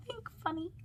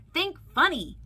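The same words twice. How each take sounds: First: High, hushed little echo; soft echo. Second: High, loud urging call. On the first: Pastor explaining a picture to children, softly echoing. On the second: Mike urging monsters to be funny, calling out. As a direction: urge the crew on with a raised voice. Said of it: "he called". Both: A narrator's reading.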